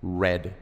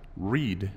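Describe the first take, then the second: First: It sounds like the word red. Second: It does not sound like the word red. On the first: It is the past tense. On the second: It is the present tense.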